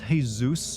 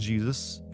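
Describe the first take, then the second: First: The name is said with a Spanish pronunciation. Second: The name is said with an English pronunciation. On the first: This is the correct way to say the name. The speaker calls it right. "it's Jesus, ... only the Spanish got my name right" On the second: This is the incorrect way to say the name. The speaker calls it wrong. "not Jesus"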